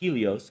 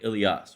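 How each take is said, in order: First: The name begins with an H sound. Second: The name begins directly with a vowel sound. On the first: This is the Romanized form of the name. "We pronounce it Helios because it's Romanized with the H from the Eta" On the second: This is the original Greek form of the name.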